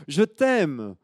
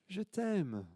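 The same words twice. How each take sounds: First: Put-on high, loud child's call; loud high I love you; little girl calling. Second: High, soft faraway repeat; the call coming back as an echo; faint distant echo. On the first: Girl calls out lovingly. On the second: Acted. Echo answers the girl.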